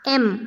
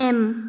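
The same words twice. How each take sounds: No difference in how they are said.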